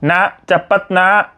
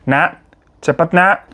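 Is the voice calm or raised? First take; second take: raised; calm. First: It is said in a raised, higher voice. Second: It is said in a calm, normal voice.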